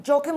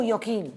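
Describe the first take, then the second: First: Joachim said with an English J, like "JOE-a-kim"; anglicised Joachim. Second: Joachim said with an initial Y, like "yo-KEEM"; Y-sound Joachim. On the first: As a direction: pronounce Joachim as "JOE-kum", stress up front. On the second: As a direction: pronounce Joachim as "ya-KEEN", with a long ee. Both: Shown as a demonstration. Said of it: "is it Joachim or Joachim?".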